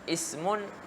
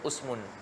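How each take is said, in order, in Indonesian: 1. Vokal pertama adalah bunyi i. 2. Vokal pertama adalah bunyi u. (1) "dibariskan dengan baris kasrah pada kebanyakannya" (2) "ada lughah yang dhaifah disebut"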